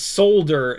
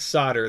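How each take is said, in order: First: The L sound is clearly pronounced. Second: The L sound is left out. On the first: The speaker calls it right. "There's an L in there" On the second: The speaker calls it wrong. "not solder"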